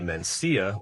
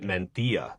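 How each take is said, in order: First: The middle consonant sounds like an s. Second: The middle consonant sounds like th.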